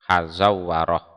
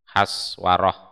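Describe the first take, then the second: First: The name has two vowels and a doubled w. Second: The name has a short first part, single w. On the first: "wawunya itu ditasdid" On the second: "wazannya adalah Koswaroh"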